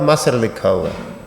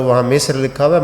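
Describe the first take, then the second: First: "مصر" said "Masr", with a instead of i; wrong vowel. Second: "مصر" said "Misr", with a short i; correct vowel. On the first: Teacher challenging driver's version of the name, "مصر" pronounced "Masr". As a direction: contrastive "مصر" with an a after the m. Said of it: "اس کو زبر پڑ رہا تھا". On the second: Teacher challenging driver about the Quran's spelling, "مصر" pronounced "Misr". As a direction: contrastive "مصر" with an i after the m. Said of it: "جہاں زیر ہونی چاہیے". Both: Retold or imitated.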